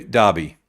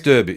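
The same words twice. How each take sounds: First: Derby with an ah vowel; DAR-bee pronunciation. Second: Derby with an er vowel; DER-bee pronunciation. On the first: Host trying the other version, Derby said DAR-bee. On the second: Host introducing the next game, derby said DUR-bee. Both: Real, not acted. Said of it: "What do you say?".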